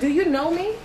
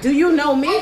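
First: It sounds like a sincere, curious question. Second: It sounds like a confrontational, challenging retort.

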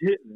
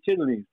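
First: It is squeezed into two quick syllables. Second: All three syllables are said in full. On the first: "That's how they pronounce it" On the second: "They don't say chitterlings"

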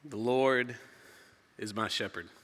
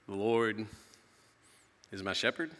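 First: It is said as a plain statement. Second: It is said as a question.

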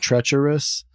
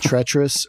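First: The word is spread over three syllables. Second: The word is squeezed into two syllables. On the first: "is this going to be two or three syllables" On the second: "is this going to be two or three syllables"

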